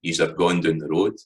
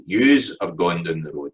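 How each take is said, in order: First: Said in the usual way. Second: "Yous" stressed and set apart at the start; emphatic yous. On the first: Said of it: "So that's in the subject form". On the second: Shown as a demonstration. Teacher contrasting emphatic "Yous" with the plain subject form. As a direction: hit "Yous" to draw attention to who. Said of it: "So that's the emphatic form".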